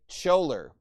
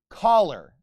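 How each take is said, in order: First: The word does not sound like shirt collar. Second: The word sounds just like shirt collar. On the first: The speaker calls it wrong. "he would say choler, but that is wrong" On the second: The speaker calls it right. "just like you'd think of like a collar on your shirt"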